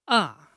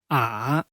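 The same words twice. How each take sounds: First: The pitch falls sharply from high to low. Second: The pitch first falls, then rises again. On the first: "Falling tone. The pronunciation is descending" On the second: "Falling rising tone. Pronunciation is to first fall and then rise"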